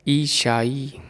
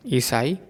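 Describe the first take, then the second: First: ईशाई with sh; the mistaken ईशाई; wrong form. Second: ईसाई with a clear स; the proper ईसाई; correct form. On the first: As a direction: say ईशाई, स turned into श. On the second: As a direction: say ईसाई, s not sh. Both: Shown as a demonstration. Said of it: "अशुद्ध और शुद्ध".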